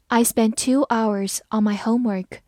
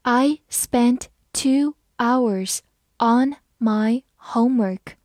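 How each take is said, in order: First: Said in the usual way. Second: Slow, stretched-out read. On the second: Shown as a demonstration. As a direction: read it slowly for learners. (慢速朗读) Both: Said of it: "我们慢慢来读".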